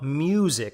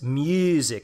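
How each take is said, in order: First: The U vowel is a plain English U. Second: The U vowel has a fronted E color. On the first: "it's not music" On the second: "It has a little color of E in there"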